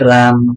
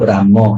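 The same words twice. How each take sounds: First: The word ends on a bare consonant sound. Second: The word ends with a short vowel sound. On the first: This is how Hindi speakers say it. "ଆମର ହିନ୍ଦୀରେ କୁହାଯାଏ" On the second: This is how Odia speakers say it. "କିନ୍ତୁ ଆମ ଓଡିଆରେ କଣ କହୁ"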